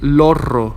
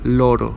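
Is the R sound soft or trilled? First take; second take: trilled; soft. First: The middle R is strongly trilled. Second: The middle R is a soft tap. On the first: The speaker calls it wrong. "We don't say parra or lorro" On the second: The speaker calls it right. "it's soft"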